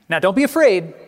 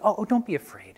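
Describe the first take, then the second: First: It is said in a harsh, commanding tone. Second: It is said in a tender, inviting tone.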